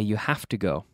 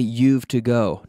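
First: The word have is said in full. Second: The word have is contracted onto you. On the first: The speaker calls it right. "we say you have to go. We always use it in the full form" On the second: The speaker calls it wrong. "We don't say you've to go"

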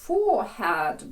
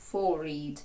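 First: The h sound in the middle is clearly pronounced. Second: The h sound in the middle is dropped. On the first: This is the modern, more common pronunciation. "Переважно зараз сучасні англійські кажуть forehead, бо forehead складається з двох слів for і head" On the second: This is the older pronunciation. "старіший варіант forehead. Forehead, де H з'їдається"

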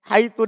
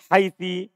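First: The word ends with a u vowel. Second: The word ends with an i vowel. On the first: "dengan dibaca dhamma" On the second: "dengan dibaca kasroh"

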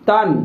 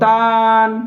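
First: The word is said quickly with a short vowel. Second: The word is said slowly with a drawn-out vowel. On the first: The speaker calls it right. "তানবিনের উচ্চারণ তাড়াতাড়ি পড়তে হয়" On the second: The speaker calls it wrong. "আর কেউ যদি টানে পড়ে"

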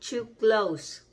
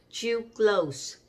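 The two takes are said the same way.

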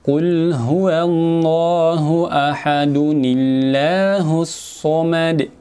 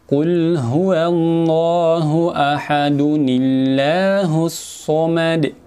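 First: Ahad runs into Allahus through a linking ni sound. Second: The same.

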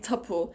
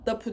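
First: The word begins with a hard t sound. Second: The word begins with a soft d sound. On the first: The speaker calls it right. "değil tapu" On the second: The speaker calls it wrong. "PÇTK sert ünsüzlerine bastıramama durumu"

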